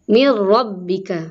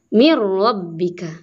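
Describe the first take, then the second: First: The first word ends with an r sound. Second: The same.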